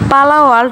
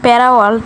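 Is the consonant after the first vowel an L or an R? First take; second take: L; R. First: The first word has an L sound. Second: The first word has an R sound. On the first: The speaker calls it right. "সেটার নামে পালা world" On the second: The speaker calls it wrong. "আমি বলছিলাম প্যারা world"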